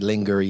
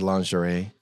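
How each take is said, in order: First: It is said the local Gastonia way. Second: It is said the usual standard way.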